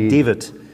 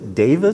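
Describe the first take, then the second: First: The name is pronounced the German way. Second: The name is pronounced the American English way. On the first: "aber ich heiße einfach David" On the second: "das ist so das Amerikanische"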